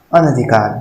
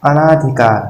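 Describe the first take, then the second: First: अनधिकार with short vowels throughout; correct form. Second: अनाधिकार with long आ after अ; wrong form read out. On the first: Teacher giving the correct spelling aloud, carefully. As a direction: says अनधिकार plainly, short अ न ध. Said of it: "अनधिकार होगा". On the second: Teacher reading out the misspelt word to his class, pronouncing it. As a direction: reads अनाधिकार with a long first vowel. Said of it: "इसका हो जाएगा". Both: Shown as a demonstration.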